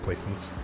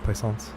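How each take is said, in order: First: The name is pronounced in a plain English way. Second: The name is pronounced in a French way. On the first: The speaker calls it right. "way more mundane" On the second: The speaker calls it wrong.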